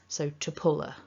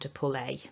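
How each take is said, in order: First: The final vowel is weak and linked on. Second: The final vowel is full and stressed. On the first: The speaker calls it right. "go weak is a better choice" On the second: The speaker calls it wrong. "It's too much, it's overstressed"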